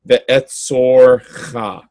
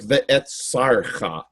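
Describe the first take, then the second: First: The vowel before the r is an 'o'. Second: The vowel before the r is an 'a'. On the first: The speaker calls it right. "it should be pronounced ve'etzorcha. That is correct" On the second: The speaker calls it wrong. "It looks like ve'etzarcha"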